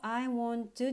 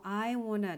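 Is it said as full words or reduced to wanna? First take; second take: full; reduced. First: Each word is said fully and separately. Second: The words are reduced and run together. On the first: "この最初のI want to っていうところも" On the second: "I wanna っていうふうに音が変わります"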